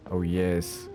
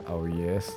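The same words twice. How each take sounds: The two takes are said the same way.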